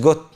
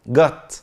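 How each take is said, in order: First: The vowel sounds like a rounded 'oh'. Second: The vowel sounds like an open 'ah'. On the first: The speaker calls it wrong. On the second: The speaker calls it right.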